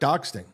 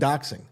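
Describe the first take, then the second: First: A t sound comes before the -ing ending. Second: No t sound comes before the -ing ending. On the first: The speaker calls it wrong. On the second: The speaker calls it right.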